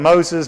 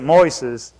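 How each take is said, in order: First: The name is said the common English way. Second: The name is said with the Spanish sounds. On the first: The speaker calls it wrong. "most people call him Moses" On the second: The speaker calls it right. "but you pronounce it Moises"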